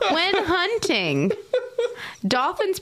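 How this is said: A pause comes between hunting and dolphins. The speaker calls it right. "there really should be a comma there"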